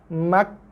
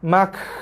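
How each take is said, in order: First: A small puff of breath follows the final consonant. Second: A large rush of breath follows the final consonant. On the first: The speaker calls it right. "balance antara tekanan pada makhraj berserta dengan hembusan nafas" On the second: The speaker calls it wrong. "longgar keluar nafas bersepah-sepah pun tak boleh"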